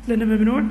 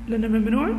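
Both takes have the same delivery.

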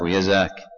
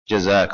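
First: The word begins with a Y sound. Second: The word begins with a J sound. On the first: "قلب الجيمية" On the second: "يجوز جزاك ويزاك"

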